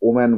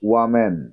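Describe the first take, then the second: First: The word starts with a plain 'o' vowel. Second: The word starts with a 'w' glide. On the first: The speaker calls it wrong. "অনেকে এখানে ওম্যান বলো" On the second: The speaker calls it right. "এটাকে ওয়াম্যান বলবে"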